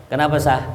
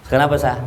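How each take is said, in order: The two takes are said the same way.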